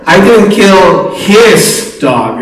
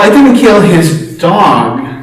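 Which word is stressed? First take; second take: his; dog. First: The stress is on the word 'his'. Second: The stress is on the word 'dog'. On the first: The speaker killed someone else's dog. "You look at the dogs in the community and see what's going on" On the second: The speaker killed something else of his. "Well, what did you kill, right?"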